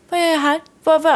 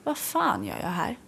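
First: Higher, bewildered asking out loud; a dazed, baffled question; mock bewildered, higher and lost; confused. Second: Much softer, muttered to herself; a private thought in a taxi, said under the breath; softly asking herself in the rush hour taxi; quiet inner thought. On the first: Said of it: "man blir så här förvirrad". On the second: Retold or imitated. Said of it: "bara tänkte jag så här".

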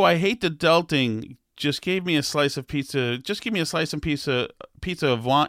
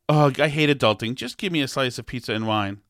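First: Stumbling read, "pizza of wine" garbled; fumbled reading. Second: Said in the usual way. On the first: Real, not acted. Podcaster misreads a TikTok comment aloud, stumbling. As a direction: trip over the quote while reading. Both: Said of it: "let me try again".

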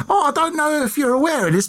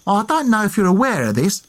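First: Full hammed-up Essex accent, much higher and quick. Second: Put-on light first go at an Essex accent as Dick Turpin; a hint of Essex, slightly higher. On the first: Dick Turpin sweet-talking the landlady, hammed-up high Essex accent. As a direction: camp it up as an Essex rogue. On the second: Dick Turpin to the landlady, lightly voiced Essex accent. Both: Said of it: "I'm doing an Essex accent".

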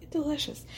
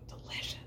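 First: Quiet, relishing delicious; softly voiced delicious; soft savoring. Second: Breathy whisper of delight; barely voiced mmm-delicious; whispered savoring. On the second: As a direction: whisper it like you can taste it. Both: Savoring tasting coconut rice.

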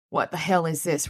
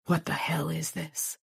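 First: Said in the usual way. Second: Slow, sickened whisper; hushed horrified whisper. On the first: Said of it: "Rollins said, panting". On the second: A narrator's reading. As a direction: breathe it out, nauseated. Sick stunned cop at crime scene.

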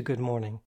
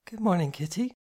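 First: Said in the usual way. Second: Greeting lilting up on morning; sleepy, gentle morning greeting; soft sleepy murmur. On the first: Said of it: "answering hi to good morning". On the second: A narrator's reading. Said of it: "she murmured".

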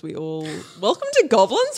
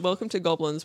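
First: "welcome to Goblins?" said louder with a puzzled rising end; confused tune. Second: Said in the usual way. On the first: Real, not acted. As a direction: trip over "Goblins" and lift it into a question. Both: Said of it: "What was that?".

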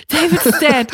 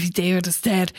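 First: Louder, higher, shocked echo; alarmed repeat. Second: Hushed, stunned whisper; whispered disbelief. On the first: Housemates pass on the news, louder and alarmed. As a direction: blurt it out in alarm. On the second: Housemates hear the news, whispering in disbelief. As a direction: breathe it out in shock. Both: Retold or imitated.

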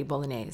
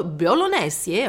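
First: Said in the usual way. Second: Bolognese drawn out slowly as bo-lo-NE-se, rising at the end; Italian-style bolognese. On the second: Retold or imitated. Copying the chef's Italian pronunciation, bolognese slow and rising. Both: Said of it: "or however he says it".

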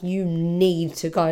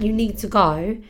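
First: Slow, drawn-out "need" in "you need to go"; urgent stress on need. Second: Said in the usual way. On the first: Shown as a demonstration. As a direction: lean hard on "need", stretching it out.

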